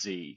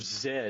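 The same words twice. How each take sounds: First: The letter is said the American way, zee. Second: The letter is said the Canadian way, zed.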